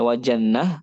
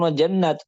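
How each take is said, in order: First: "jannah" ended in a breathed h, no t; stop on soft h. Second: "jannat" ended on a crisp t; stop with t. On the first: Teacher showing a stop on ta marbutah, ending "jannah" in h. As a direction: close "jannah" on an open h sound. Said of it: "berhentinya apakah dengan tak marbutah". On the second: Teacher showing the other way to stop, ending "jannat" in t. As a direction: close "jannat" with an audible t sound. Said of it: "pakai tak, seperti itu". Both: Shown as a demonstration.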